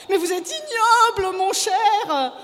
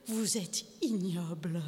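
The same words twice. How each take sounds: First: High, loud shriek of IGNOBLE; screaming indignation; outraged insult. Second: Slow, soft, low disgust; quiet, slow contempt; contemptuous verdict. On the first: Wife screams insult, second time. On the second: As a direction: drop down and draw out IGNOBLE. Wife condemns husband, first time. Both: A narrator's reading.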